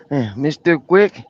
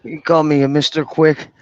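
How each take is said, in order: First: Slow, drawn-out Tattoo impression; lightly voiced Tattoo from Fantasy Island. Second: Said in the usual way. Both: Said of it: "He sound like Tattoo".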